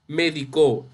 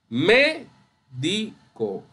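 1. La tónica está en la tercera sílaba. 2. La tónica está en la primera sílaba. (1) "cuando es aguda, me refiero a medicó" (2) "esa es esdrújula"

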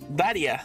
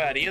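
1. El acento cae en la primera sílaba. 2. El acento cae en la segunda sílaba.

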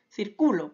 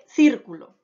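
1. El acento está en la segunda sílaba. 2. El acento está en la primera sílaba. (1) "ahora la mayor fuerza de voz la lleva en la penúltima sílaba" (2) "tiene la mayor fuerza de voz en la antepenúltima sílaba"

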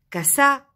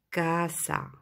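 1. L'accent ne tombe pas sur l'avant-dernière syllabe. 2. L'accent tombe sur l'avant-dernière syllabe.

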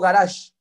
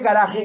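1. La consonante del medio es una 'zh' suave. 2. La consonante del medio es una 'h' áspera y gutural. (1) "para que fuera garage tendría que ser con G" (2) "Aquí ya está castellanizado y es garaje"

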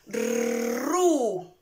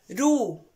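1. La r es un trino fuerte. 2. La r es un toque suave. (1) "va a sonar más fuerte" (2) "que es suave? Sonaría RU"

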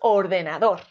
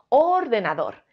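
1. La tónica está en la cuarta sílaba. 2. La tónica está en la primera sílaba. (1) "Y si es dor" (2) "Si la sílaba tónica creemos que es or"

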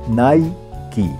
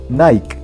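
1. La palabra Nike se pronuncia con dos sílabas. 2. La palabra Nike se pronuncia como una sola sílaba. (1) "se pronuncia normalmente en dos sílabas" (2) "en algunos países de Latinoamérica se pronuncia en una sola sílaba"

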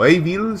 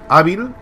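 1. El nombre se dice con pronunciación inglesa. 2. El nombre se dice con pronunciación española.

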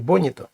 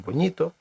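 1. Наголос не на середньому складі. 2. Наголос на середньому складі. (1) "не «боніто»" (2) "повинен бути наголошеним передостанній склад"

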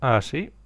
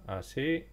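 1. La voz suena cercana y mucho más fuerte. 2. La voz suena lejana y mucho más bajita. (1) "tienes que tenerlo cerquita de la boca" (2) "me lo voy a poner a unos 7 centímetros, alejando"

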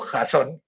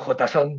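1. Se pronuncia con una lectura española, como Jasón. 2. Se pronuncia con una lectura de estilo inglés. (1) "digo JSON, que me suena a mitología griega" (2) "Yo no digo JSON"

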